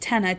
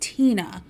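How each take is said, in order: First: The first vowel sounds like 'eh'. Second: The first vowel sounds like 'ee'. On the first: The speaker calls it wrong. "spelled like I would pronounce it" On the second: The speaker calls it right. "It's pronounced Tina"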